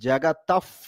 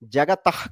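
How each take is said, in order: First: The word ends with an f-like puff sound. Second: The word ends with a plain h sound. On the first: The speaker calls it right. "జగతఫ్ పితరౌ వందే" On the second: The speaker calls it wrong. "జగతహ్ కాదు"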